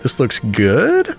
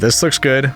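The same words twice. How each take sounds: First: The voice rises at the end like a question. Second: The voice falls at the end, sounding definite.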